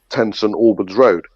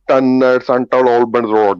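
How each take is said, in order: First: It is said with a native English accent. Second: It is said with a heavy foreign accent. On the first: The speaker calls it right. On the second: The speaker calls it wrong.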